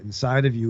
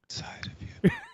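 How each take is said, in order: First: It is said at normal speed. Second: It is said very slowly.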